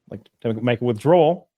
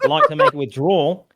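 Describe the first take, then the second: First: It is said in the speaker's ordinary accent. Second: It is said in a put-on Australian accent.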